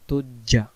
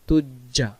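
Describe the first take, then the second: The two takes are said the same way.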